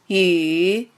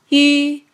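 First: The pitch dips low, then rises. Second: The pitch stays high and level. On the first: "三声拐弯" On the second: "一声平"

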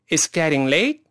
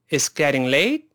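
No difference in how they are said.

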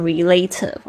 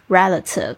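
First: The stress is on a later syllable. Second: The stress is on the first syllable. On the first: The speaker calls it wrong. "大家不要念成relative" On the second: The speaker calls it right. "重音在第一个音节上面"

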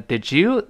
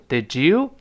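First: The d and y are said separately. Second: The d and y blend into a j sound. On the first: "你像咱们说did you" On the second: "就等于did you did you 这么一个声音"

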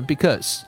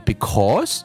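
First: The first vowel is reduced to a schwa. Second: The first vowel is said fully.

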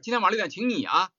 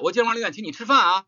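First: The stress is on 你. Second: The stress is on 吃饭.

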